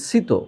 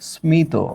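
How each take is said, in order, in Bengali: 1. শব্দটি কোনো 'm' ধ্বনি ছাড়াই উচ্চারিত হয়। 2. শব্দটি 's'-এর পরে 'm' দিয়ে উচ্চারিত হয়। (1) "তাহলে এই শব্দের উচ্চারণ হওয়া উচিত" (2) "আমরা তো এটাকে ঠিকই এইভাবে উচ্চারণ করছি"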